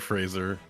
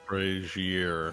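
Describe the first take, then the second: First: The name is said as Fraser. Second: The name is said as Frasier. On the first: The speaker calls it right. "It would be Fraser" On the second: The speaker calls it wrong. "Not Frasier"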